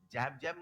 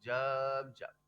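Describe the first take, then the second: First: The vowel is an open 'ae' sound. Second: The vowel is a short central 'uh' sound. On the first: The speaker calls it wrong. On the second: The speaker calls it right.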